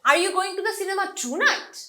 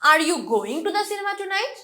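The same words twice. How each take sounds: First: The word tonight is stressed. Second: The word going is stressed. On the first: Is it tonight, or some other day? "মানে তুমি কি আজ রাত যাচ্ছ নাকি অন্য কোনো দিন যাবা" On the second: Is the person going or not? "So going টাতে আমি স্ট্রেস দিচ্ছি"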